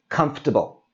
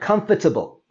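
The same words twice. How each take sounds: First: The middle syllable is dropped from the word. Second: Every syllable is pronounced, including the middle one. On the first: "we drop out the O and the R, that whole sound, and this becomes" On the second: "That's a long word"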